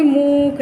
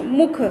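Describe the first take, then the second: First: मूख with the oo stretched out; wrong long vowel. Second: मुख with a short, quick u; said quickly. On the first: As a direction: drag the vowel in मूख as a mistake demo. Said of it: "मतलब ऐसे नहीं मूख". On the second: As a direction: get through the vowel of मुख fast. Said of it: "ऐसे जल्दी से बोलेंगे इसको". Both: Shown as a demonstration.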